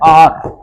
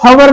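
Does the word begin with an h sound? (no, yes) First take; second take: no; yes. First: The word starts with a vowel, no h. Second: The word starts with a sounded h. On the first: The speaker calls it right. "इसको पढ़ा जाता है आर" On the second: The speaker calls it wrong. "इसको हवर नहीं पढ़ते बच्चों"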